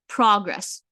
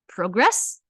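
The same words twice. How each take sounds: First: The stress is on the first syllable. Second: The stress is on the second syllable. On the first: The word is a noun. "the stress still remains at the first part of the word. So I know that it's a noun" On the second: The word is a verb. "if I'm stressing the second part of the word"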